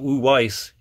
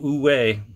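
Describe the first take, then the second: First: The final S sound is pronounced. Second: The final S sound is left silent. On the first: The speaker calls it wrong. "not Iko Uwais" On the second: The speaker calls it right. "You don't pronounce the S"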